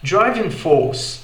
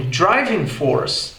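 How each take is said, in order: First: Slow British "driving force", no R; British English. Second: Slow American "driving force" with R; R sounded in "force", slow; American English. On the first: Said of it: "Já no inglês britânico soaria como". ("driving force" britânico, sem R) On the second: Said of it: "no inglês americano". ("driving force" americano, com R) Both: Shown as a demonstration.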